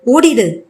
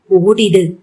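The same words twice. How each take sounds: First: Urgent, pleading push on ஓடிடு, slightly raised; a last desperate beg on ஓடிடு, near tears; mild acted plea, ஓடிடு pressed out urgently; tearful pleading. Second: ஓடிடு pushed out weakly by a wounded man; a dying gasp of ஓடிடு as he collapses; lightly acted faint ஓடிடு before fainting; fading, injured. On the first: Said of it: "அழாத குறையாய் Jayant கெஞ்சினான்". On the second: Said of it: "மயங்கி ஒத்தன வதனாவின் காலடியில் சரிந்தான்".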